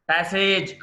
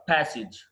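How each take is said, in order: First: ప్యాసేజ్ with a long "sayj"; wrong pronunciation. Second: ప్యాసేజ్ with a short "sij"; correct pronunciation. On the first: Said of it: "కాదు". (ప్యాసేజ్ చివర "సేజ్" అని తప్పుగా) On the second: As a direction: say ప్యాసేజ్ as "PASS-ij". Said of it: "ప్యాసేజ్ కాదు". (ప్యాసేజ్ చివర "సిజ్" అని) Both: Shown as a demonstration.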